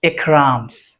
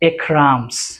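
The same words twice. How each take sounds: First: The verb shrinks to an s on the name. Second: The verb shrinks to an s on the name.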